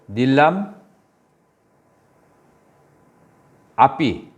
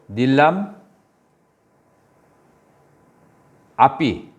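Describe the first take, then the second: First: The two words stay apart with the 'a' vowel kept. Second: The same.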